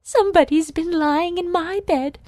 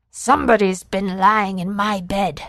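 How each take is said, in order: First: Higher, prim mother bear voice; much higher voice, put out and fussy; mother bear sniffing. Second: Father bear growling. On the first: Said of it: "sniffed the mother bear". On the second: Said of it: "growled the father bear". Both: Acted.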